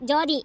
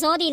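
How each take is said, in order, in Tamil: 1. பெயர் j ஒலியில் தொடங்குகிறது. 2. பெயர் s ஒலியில் தொடங்குகிறது. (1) "என் பேரு ஜோதி" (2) "என்னது சோதியா?"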